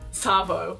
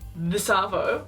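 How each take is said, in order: First: The two words merge into one short word. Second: Both words are said separately in full. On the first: "shorten that even more... it just becomes Savo" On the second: "you can say this Arvo"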